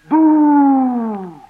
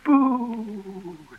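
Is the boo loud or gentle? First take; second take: loud; gentle. First: The boo is said loudly. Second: The boo is said gently.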